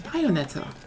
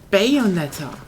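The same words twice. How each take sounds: First: It is said softly with a soft A. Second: It is said loud and hard, English style. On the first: "While in Germany it's Bayonetta. It's a very soft A" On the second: "the English way would be Bayonetta. That's like way louder and way way harder"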